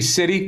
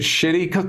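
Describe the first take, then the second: First: The word begins with a plain 's' sound. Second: The word begins with an 'sh' sound. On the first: "It was actually City" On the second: "but he's pronouncing it Shitty"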